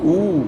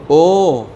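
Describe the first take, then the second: First: او as a long "oo", pitched high; Arabic vowel. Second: او as a long round "oh"; Urdu vowel. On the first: Teacher giving the Arabic damma, Arabic vowel. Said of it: "اور عربی میں کیا ہوگا". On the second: Teacher giving Urdu alif pesh, Urdu vowel. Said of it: "Urdu میں آپ کیا بولتے ہیں". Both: Shown as a demonstration.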